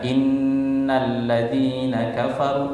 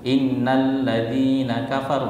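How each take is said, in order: First: The nasal sound is held with a hum. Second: The nasal sound is skipped without a hum. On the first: The speaker calls it right. "harusnya dibaca innalladzina kafaru" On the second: The speaker calls it wrong. "tapi dia tidak dengungkan, langsung"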